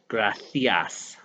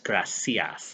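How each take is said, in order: First: The middle consonant is a lisped th sound. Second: The middle consonant is a plain s sound. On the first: This is how it is said in Spain. "They have the bit of the lisp on uh, the uh, one in Spain" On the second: This is how it is said in Latin America. "whereas in Latin America it's"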